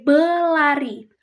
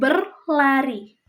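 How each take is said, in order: First: The first syllable is said without an r. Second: The first syllable is said with an r. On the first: The speaker calls it wrong. "terkadang ada beberapa orang yang mengatakan uh, kata itu sebagai belari" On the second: The speaker calls it right. "bukan berlari"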